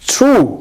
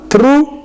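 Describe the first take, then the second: First: The tr sounds close to a ch sound. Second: The t and r sound separate and plain. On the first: The speaker calls it right. "It's true" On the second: The speaker calls it wrong.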